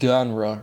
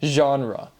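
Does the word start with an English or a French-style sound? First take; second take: English; French. First: The first sound is an English-style consonant. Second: The first sound is a French-style soft 'zh'. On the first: The speaker calls it wrong. "you don't say genre" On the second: The speaker calls it right. "But that G, you say je"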